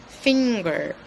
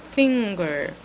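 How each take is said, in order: No difference in how they are said.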